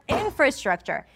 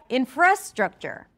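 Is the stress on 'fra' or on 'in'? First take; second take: in; fra. First: The stress falls on the syllable 'in'. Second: The stress falls on the syllable 'fra'. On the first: The speaker calls it right. "In is the primary stress" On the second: The speaker calls it wrong. "If you were to say fra, then it would sound like infrastructure"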